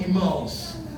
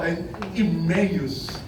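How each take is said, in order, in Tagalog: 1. Malapit ang tunog nito sa bayan ng Imus. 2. Malinaw na iba ang tunog nito sa bayan ng Imus. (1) "yun po yung kinagista namin" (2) "bago pronunciation ng mga batang pastor"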